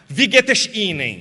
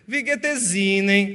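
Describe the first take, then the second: First: It is said with a Rio de Janeiro accent. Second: It is said with a Northeastern Brazilian accent. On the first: The speaker is from Rio de Janeiro. "Esse é do Rio" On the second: The speaker is from northeastern Brazil. "esse é do Nordeste"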